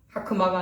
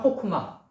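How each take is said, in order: First: The first vowel sounds like 'a'. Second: The first vowel sounds like 'o'. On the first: The speaker calls it wrong. "하크마가 아니라" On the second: The speaker calls it right. "오발음 나야죠"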